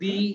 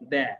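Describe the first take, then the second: First: The word ends in an 'ee' vowel. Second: The word ends in an 'uh' vowel. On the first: "দি এর উচ্চারণ দি এর মতন হবে এরকম দি" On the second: "আরেকটা হচ্ছে দা, এরকম দে"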